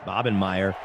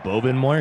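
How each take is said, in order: First: The last part sounds like 'meyer'. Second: The last part sounds like 'moyer'. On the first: This is how the name's owner says it. The speaker calls it right. "but it's pronounced Bobenmeyer" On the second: This is how most people read the written name. The speaker calls it wrong. "everyone says Bobenmoyer because that was written"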